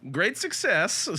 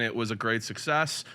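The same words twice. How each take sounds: First: Higher comic voice quoting a catchphrase; catchphrase impression. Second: Said in the usual way. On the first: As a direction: pop the catchphrase out in a put-on voice. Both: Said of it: "Had to do that for David there".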